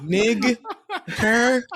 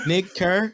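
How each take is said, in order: First: High, punched "Nig", pause, then "Kerr"; emphasis on first word. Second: "Nig Kerr" high, rising on "Kerr"; questioning name read-out. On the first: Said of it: "More emphasis on the first". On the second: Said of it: "More emphasis". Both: Shown as a demonstration.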